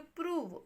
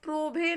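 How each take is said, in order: First: The vowel is 'oo', ending in a 'v' sound. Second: The vowel is 'oh', ending in a 'bh' sound. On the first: The speaker calls it right. "इसको क्या पढ़ेंगे, प्रूव" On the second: The speaker calls it wrong. "प्रोभे नहीं पढ़ेंगे"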